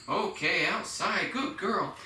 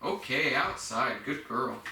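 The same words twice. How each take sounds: First: Much higher, singsong praise for the puppy. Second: Said in the usual way. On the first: Shown as a demonstration. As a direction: lift the voice way up, bright and happy. Praising the dog, voice jumps. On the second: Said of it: "I'll start emphasizing the word outside".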